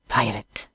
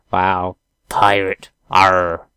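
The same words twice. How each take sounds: First: Said in the usual way. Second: Slow growly pirate drawl. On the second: Pretend. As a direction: ham up the pirate.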